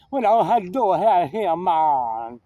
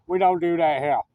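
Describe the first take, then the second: First: Mock Jamaican accent, drawn-out "man". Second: Said in the usual way. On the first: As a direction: imitate a Jamaican store clerk. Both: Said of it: "And when he was Jamaican".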